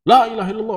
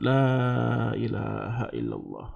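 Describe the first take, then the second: First: It is said loudly and hurriedly. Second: It is said softly and slowly. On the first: The dying person is being pushed and forced. The speaker calls it wrong. "kalau kita ngomong dari jarak jauh kan kenceng gitu" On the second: The dying person feels calm and unforced. The speaker calls it right. "Karena kita mengucapkan dengan lemah, lemah lembut"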